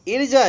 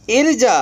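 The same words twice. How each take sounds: First: Said in the usual way. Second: इर्जा said alone, higher and louder; drilled word. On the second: Shown as a demonstration. Teacher repeating इर्जा for students, high and loud. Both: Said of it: "इर्जा यानी".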